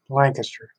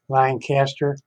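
First: The name is said the distinct local way. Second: The name is said the common American way. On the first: This is how this particular city says it. "but we're pronounced Lancaster" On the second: This is how most towns of that name say it. "Most Lancasters in the United States are pronounced Lancaster"

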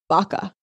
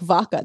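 First: It starts with a B sound, northern style. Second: It starts with a V sound, southern style.

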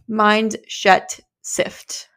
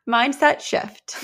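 First: The 's' and 'sh' sounds are swapped. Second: The 's' and 'sh' sounds are in place. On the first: The speaker calls it wrong. "I always say mind shet sift" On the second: The speaker calls it right. "Mindset shift, not a mind shet sit"

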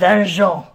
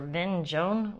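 First: The name is said with French-style sounds. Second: The name is said with English-style sounds. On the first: The speaker calls it right. "which you have to pronounce like that" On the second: The speaker calls it wrong. "if you ask a som at a restaurant for Vinjone, we'll like look at you"

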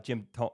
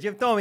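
First: It is said in his normal voice. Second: It is said in a put-on old-man voice.

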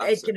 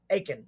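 First: The name is said with a T sound. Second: The name is said without a T sound. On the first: The speaker calls it wrong. "it's not Aitken" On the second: The speaker calls it right. "No eight, no T. The T is silent"

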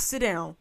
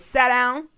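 First: The command is said in a mild, plain way. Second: The command is said in a stern, forceful way. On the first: A weak request that can be ignored. The speaker calls it wrong. "Not sit down" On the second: A firm order that must be obeyed. The speaker calls it right.

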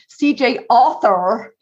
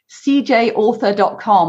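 First: It is said in an American accent. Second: It is said in a non-American accent.

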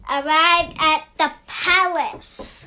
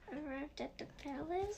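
First: It is said with strong, emphatic conviction. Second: It is said casually, without emphasis.

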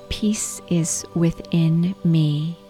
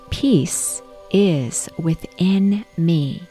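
First: It is said at normal speaking volume. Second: It is said in a loud, strong voice. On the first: "say the affirmation using your natural speaking voice" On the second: "repeat in a loud voice, really waking up your voice"

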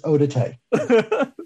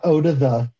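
First: The last word sounds like 'tay'. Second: The last word sounds like English 'the'. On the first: The speaker calls it right. "it's eau de thé" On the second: The speaker calls it wrong. "It's not eau de the"

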